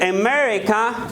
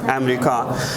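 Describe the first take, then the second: First: It is said with an English pronunciation. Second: It is said with a Dari pronunciation. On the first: "In English, we pronounce it" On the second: "در امریکا در داری چی میگیم؟"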